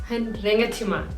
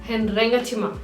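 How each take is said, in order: Both takes have the same delivery.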